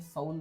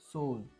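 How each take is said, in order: First: The vowel sounds like 'ow'. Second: The vowel sounds like 'oh'. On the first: The speaker calls it wrong. "काही लोक तर सौल म्हणतात" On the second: The speaker calls it right. "हा इथे ओ असा उच्चार झालेला आहे"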